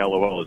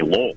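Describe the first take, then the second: First: It is spelled out as three separate letters. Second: It is said as a single one-syllable word. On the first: "they don't say LOL as much as" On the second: "people say phonetically"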